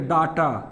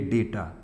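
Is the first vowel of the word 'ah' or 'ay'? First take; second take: ah; ay. First: The first vowel is an open 'ah' sound. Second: The first vowel is an 'ay' sound. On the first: The speaker calls it wrong. "कुछ लोग कहेंगे डाटा, ... डाटा मत कहिएगा" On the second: The speaker calls it right. "तो actual pronounce है डेटा"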